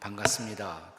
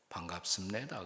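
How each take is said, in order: First: It is said plainly, without stress at the end. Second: The stress falls on the end of the word. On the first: It is the South Korean way of greeting. "우리처럼 그냥 반갑습니다" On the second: It is the North Korean way of greeting. "악센트가 뒤에 가서 붙잖아요"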